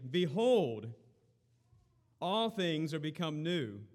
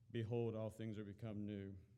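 First: It is said with lively, exclamatory energy. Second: It is said in a flat monotone. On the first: The speaker calls it right. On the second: The speaker calls it wrong.

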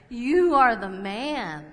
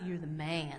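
First: It sounds like a blunt, forceful accusation. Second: It sounds like casual, admiring praise.

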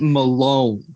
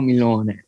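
First: The surname is said in an English way. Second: The surname is said in an Italian way. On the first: This is how the broadcasters said the name. The speaker calls it wrong. "it can't be Malone. How they pronounced it" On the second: This is how the player's name should be said. The speaker calls it right. "it's got to be Tommaso Antonio Milone"

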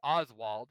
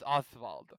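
First: The name is said with a plain English pronunciation. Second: The name is said with a German pronunciation.

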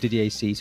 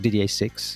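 First: The surname sounds like French 'cease'. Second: The surname sounds like English 'six'. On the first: The speaker calls it right. "pronounce it properly in the French way" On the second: The speaker calls it wrong. "as I called it initially"

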